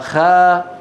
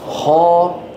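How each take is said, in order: First: The kh sound is light and thin. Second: The kh sound is heavy and full. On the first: The speaker calls it wrong. "أبرز الأخطاء عند نطق الخاء عدم تفخيمها" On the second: The speaker calls it right. "ويجب أن يقول ماذا خا"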